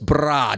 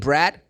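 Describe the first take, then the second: First: The R sound is very strong. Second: The R sound is plain and soft. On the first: The speaker calls it right. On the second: The speaker calls it wrong.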